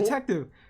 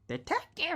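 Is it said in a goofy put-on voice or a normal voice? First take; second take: normal; goofy. First: It is said in the speaker's normal voice. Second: It is said in a goofy, Mickey-like voice.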